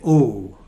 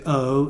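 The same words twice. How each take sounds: First: The vowel is the common American-style diphthong. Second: The vowel is the received pronunciation diphthong. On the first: "they say O" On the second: "don't say O"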